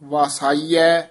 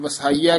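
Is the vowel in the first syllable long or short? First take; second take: long; short. First: The first syllable has a long a vowel. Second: The first syllable has a short vowel. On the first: The speaker calls it right. "ਇਹ ਵਸਾਈਐ ਉਚਾਰਨ ਕਰਨਾ, ਇੱਥੇ ਵਾਵੇ ਦੇ ਕੰਨਾਂ ਵੀ ਹੈ" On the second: The speaker calls it wrong. "ਆਮ ਵਸਾਈਐ ਕਹਿ ਜਾਂਦੇ ਹਨ"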